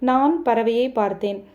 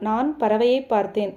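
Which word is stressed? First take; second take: நான்; பறவையை. First: The stress falls on the first word. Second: The stress falls on the middle word. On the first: It tells who saw the bird. "நான் என்ற சொல்லுக்கு அழுத்தம் கொடுத்தால்" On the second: It tells what was seen. "பறவைக்கு அழுத்தம் கொடுத்தால்"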